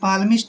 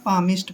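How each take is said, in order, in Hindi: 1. इस शब्द में L की ध्वनि बोली जाती है। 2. इस शब्द में L की ध्वनि नहीं बोली जाती। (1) "ऐसे पालमिस्ट नहीं पढ़ना है" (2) "पामिस्ट पढ़ना है"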